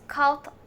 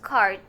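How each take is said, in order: First: The r sound after the vowel is dropped. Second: The r sound after the vowel is pronounced. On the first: "but in British English it becomes cout, or is removed" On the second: "so it is pronounced cart"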